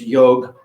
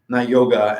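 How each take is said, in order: First: The word ends on a consonant, with no final vowel. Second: The word ends with an added final vowel sound. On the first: It follows the original Sanskrit usage. The speaker calls it right. "it's yog, not yoga" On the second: It follows a British habit. The speaker calls it wrong. "They added uh to all these Sanskrit and Hindi words"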